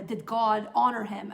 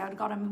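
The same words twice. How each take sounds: First: Said in the usual way. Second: Dry sarcastic question, a bit softer. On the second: Shown as a demonstration. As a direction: let the irony show on "how did God honor him". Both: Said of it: "And I say this sarcastically".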